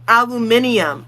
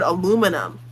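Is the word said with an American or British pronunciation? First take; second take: British; American. First: It has five syllables, British style. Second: It has four syllables, American style.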